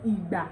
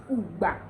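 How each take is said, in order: First: "Igba" as ee-gba; Yoruba pronunciation. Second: "Ugba" as oo-gba; Ondo pronunciation. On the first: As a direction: open "Igba" with an ee. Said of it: "the Yoruba translation is". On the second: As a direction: open "Ugba" with an oo. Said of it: "Changing of I to U". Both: Shown as a demonstration.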